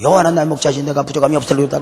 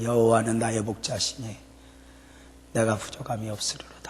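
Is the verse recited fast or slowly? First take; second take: fast; slowly. First: The verse is recited quickly. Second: The verse is recited slowly and quietly.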